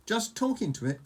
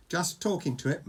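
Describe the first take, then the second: First: High-pitched, incredulous echo; astonished. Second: Mildly embarrassed reply, only lightly acted. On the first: Fishlegs echoes Hiccup's admission, astonished. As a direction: repeat it back in disbelief. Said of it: "gasped Fishlegs in astonishment". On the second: Hiccup admits it to Fishlegs, a touch embarrassed. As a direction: own up to it sheepishly. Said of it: "mumbled Hiccup, very embarrassed". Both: A narrator's reading.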